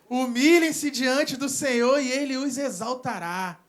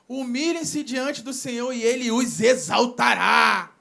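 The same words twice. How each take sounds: First: It is said with plain, ordinary intonation. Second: It is said with fuller, more expressive intonation.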